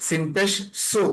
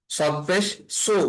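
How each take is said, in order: First: সু with the light Arabic sin; sin pronunciation of সু. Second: সু with the heavy Arabic sad; sad pronunciation of সু. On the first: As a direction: keep the s of সু thin, a plain sin. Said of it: "এখানে সিন". (সিনের হালকা উচ্চারণে সু) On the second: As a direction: make the s of সু a full, emphatic sad. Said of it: "এটা হচ্ছে সদের, আহ, উচ্চারণটা". (সদের ভারী উচ্চারণে সু) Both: Shown as a demonstration.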